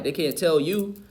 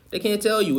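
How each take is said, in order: First: Said in the usual way. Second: They can't tell you, pitched much higher with a falling end; insistent, higher restatement; emphatic repeat. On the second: Real, not acted. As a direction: lift the repeat higher to drive it home.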